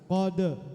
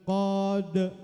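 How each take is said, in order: First: The final sound is short and bounces at once. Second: The final sound is drawn out over two beats. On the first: The speaker calls it right. "satu ketukan" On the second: The speaker calls it wrong. "bukan gitu maksudnya"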